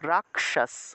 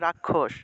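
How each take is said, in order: First: The middle consonant splits into k then retroflex sh. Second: The middle consonant is not split into k and sh. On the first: This is the Sanskrit way of saying it. "ক এবং মূর্ধন্যর সাথে ভেঙে যাবে" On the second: This is the Bengali way of saying it. "বাংলায় বললে"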